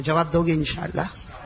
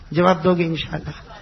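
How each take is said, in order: First: Said in the usual way. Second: Asked again, louder and pressing; louder repeat. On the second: Real, not acted. Preacher presses the crowd for an answer, louder. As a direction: push the question harder the second time.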